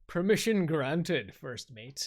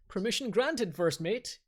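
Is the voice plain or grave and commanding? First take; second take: commanding; plain. First: It is said in a grave, commanding voice. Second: It is said in a plain, ordinary voice. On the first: The speaker calls it right. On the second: The speaker calls it wrong.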